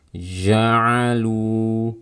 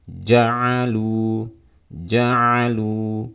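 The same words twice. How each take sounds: First: "Ja'alu" with a leaky, flowing zh before the vowel; flowing jim error. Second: "Ja'alu" with a firmly stopped j, no leak; correct closed jim. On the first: Teacher demonstrating the first common mistake, flowing jim in "Ja'alu". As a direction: let the j of "Ja'alu" stream out, tongue loosely closed. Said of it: "artinya suaranya mengalir". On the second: Teacher correcting the flowing mistake, tightly closed jim in "Ja'alu". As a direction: close the tongue tight before releasing "Ja'alu". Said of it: "Jadi seperti ini". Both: Shown as a demonstration.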